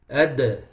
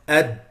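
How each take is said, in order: First: The final d ends with an echoing bounce. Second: The final d ends without any bounce. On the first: The speaker calls it right. "you'll be able to do قلقلة" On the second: The speaker calls it wrong. "if you don't do the قلقلة, it becomes"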